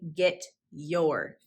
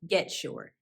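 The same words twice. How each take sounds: First: The t and y sounds stay separate. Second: The t and y merge into a ch sound. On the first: "Notice I did not say get your feet off the furniture" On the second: "Get ends in that T sound and your begins with the y sound. So it became get your"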